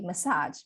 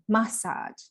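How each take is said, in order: First: It is said with an American pronunciation. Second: It is said with a British pronunciation. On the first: "I say massage" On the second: "the British people they say massage"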